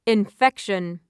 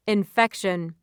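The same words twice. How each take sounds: The two takes are said the same way.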